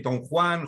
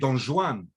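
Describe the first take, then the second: First: It uses the modern Spanish pronunciation. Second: It uses the Judeo-Spanish pronunciation. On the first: "in modern Spanish, you would say" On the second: "in Judeo-Spanish, you would say"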